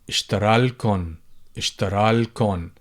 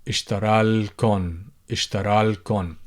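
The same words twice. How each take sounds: No difference in how they are said.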